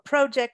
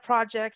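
First: It is said with a Canadian pronunciation. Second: It is said with a non-Canadian pronunciation.

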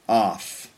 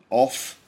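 First: The vowel is an open unrounded 'ah' sound. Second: The vowel is a short rounded 'o' sound.

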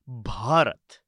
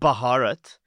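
First: The B and H are said right together. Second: The B and H are not said together. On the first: The speaker calls it right. "the B and H are right next to each other" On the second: The speaker calls it wrong. "No, not Bharat"

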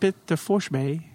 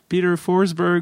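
First: It is said with a Swedish accent. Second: It is said with a non-Swedish accent.

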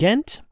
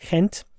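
First: The name is said with an English pronunciation. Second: The name is said with the local Flemish pronunciation.

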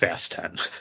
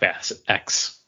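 First: The last word is said as 'ten'. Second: The last word is said as 'ex'. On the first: The speaker calls it right. "it's pronounced Fast 10" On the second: The speaker calls it wrong. "It's not Fast X"

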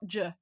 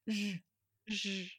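First: The J is hard, like the 'j' in jump. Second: The J is soft, like the 's' in pleasure. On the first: The speaker calls it wrong. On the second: The speaker calls it right.

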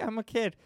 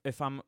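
First: It is said in a put-on child's voice. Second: It is said in his normal adult voice.

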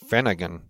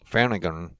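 Both takes have the same delivery.

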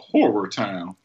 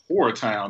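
First: The first word has two syllables, like 'horror'. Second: The first word is one syllable, like 'whore'. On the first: A scary town like a horror movie. The speaker calls it right. "It's a horror town" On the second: A town where prostitutes roam. The speaker calls it wrong. "It's not a horror town"

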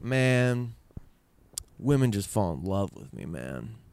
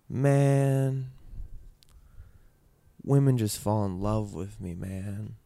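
First: It is said in an arrogant tone. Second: It is said in a sad tone.

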